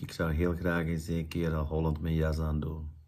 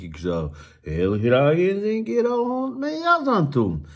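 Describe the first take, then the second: First: The voice stays on one flat, monotonous pitch. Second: The pitch swings up and down in an exaggerated way. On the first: "Ik ga even voorlezen met een slechte intonatie" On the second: "dat is een beetje overdreven"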